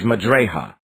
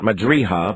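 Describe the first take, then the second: First: The vowel after r leans toward eh. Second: The vowel after r is a clear ee. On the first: The speaker calls it right. "but it is Majreha" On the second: The speaker calls it wrong. "Its pronunciation is not Majriha"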